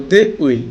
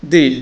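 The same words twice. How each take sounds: First: Said in the usual way. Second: "they'll" as one syllable, like "dell"; contracted form. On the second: Shown as a demonstration. Teacher models pronunciation, "they'll" in a single syllable. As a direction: merge it into a short "they'll". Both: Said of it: "উচ্চারণ করব".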